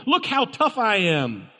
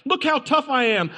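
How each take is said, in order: First: Slow, a touch higher, mock swagger; lightly voiced tough talker; imitating a show-off bragging; mock tough guy. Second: Much higher repeat of the boast, hammed-up; imitating a braggart shouting it; mock tough guy, louder. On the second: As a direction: push the mock swagger further. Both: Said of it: "it screams for those people".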